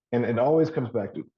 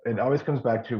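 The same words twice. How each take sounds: First: Throat catching. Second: Said in the usual way. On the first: Real, not acted. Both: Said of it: "I'm choking myself".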